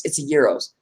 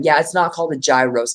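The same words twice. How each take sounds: First: "gyros" as YEE-rohs; correct pronunciation. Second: "gyros" as JAI-rohs; wrong pronunciation. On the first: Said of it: "the G is silent". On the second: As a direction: cite the mistaken "gyros" with a J sound. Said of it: "I would correct people". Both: Shown as a demonstration.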